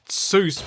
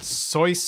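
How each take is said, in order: First: It is said like English 'juice' with an s. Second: It is said with a German-like 'oy' vowel. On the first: "I grew up knowing it as Seuss" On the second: "more like soy or something, because isn't it Germanic"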